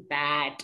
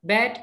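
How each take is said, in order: First: "bad" with a wide open A, lower. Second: "bad" with a closed E, like bed; wrong vowel in bad. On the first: Teacher modelling the fix, open-A "bad". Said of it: "tapi pakai A". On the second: Teacher showing what not to say, "bad" as bed. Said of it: "jangan bilang bad". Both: Shown as a demonstration.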